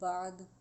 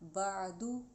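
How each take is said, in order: First: The word ends on a closed consonant. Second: The word ends with an open vowel.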